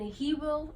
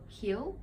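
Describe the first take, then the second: First: It is said as two separate words. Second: It is joined into one short word.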